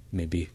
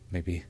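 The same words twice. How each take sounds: The two takes are said the same way.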